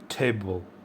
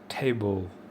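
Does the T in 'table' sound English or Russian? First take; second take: English; English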